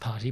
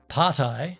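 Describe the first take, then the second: First: The name ends with a 'tee' sound. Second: The name ends with a 'tie' sound. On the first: It is the accepted way to say the name. "I know it's party" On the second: It follows the letter I in the spelling. "as I call it, ... I say Partai because it's got the I"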